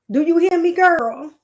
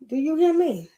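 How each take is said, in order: First: Louder, higher call of a loving grandma; grandma's affectionate call, a bit louder and higher; imitating grandma. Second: Said in the usual way. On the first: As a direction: call out like grandma checking you're listening. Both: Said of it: "That's how she would say it".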